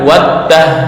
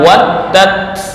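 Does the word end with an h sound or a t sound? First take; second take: h sound; t sound. First: The word ends with an h sound. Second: The word ends with a t sound. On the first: The speaker calls it wrong. "bukan waddah" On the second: The speaker calls it right. "harus dibaca waddat"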